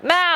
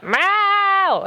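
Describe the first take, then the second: First: Short high cat meow; brief nagging meow; imitated short meow. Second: Long, very high screaming meow; drawn-out insistent cat yowl; imitated long meow. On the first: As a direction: meow once, high and quick. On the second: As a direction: stretch the meow out high and demanding. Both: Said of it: "scream for longer and louder".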